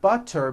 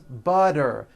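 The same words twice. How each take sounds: First: The middle consonant is a crisp T sound. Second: The middle consonant is a soft voiced D.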